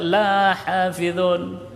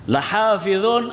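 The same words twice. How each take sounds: First: The first vowel is drawn out long. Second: The first vowel is short. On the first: We do not guard the Quran. The speaker calls it wrong. "kalau dibaca lahafizun, kami tidak menjaga Al-Quran" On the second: We truly guard the Quran. The speaker calls it right. "artinya adalah sungguh-sungguh benar kami menjaga Al-Quran"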